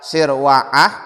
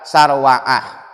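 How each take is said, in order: First: The first vowel is an 'i' sound. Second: The first vowel is an 'a' sound. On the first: "bisa dibaca sirwa'ah" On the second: "boleh dibaca sarwa'ah"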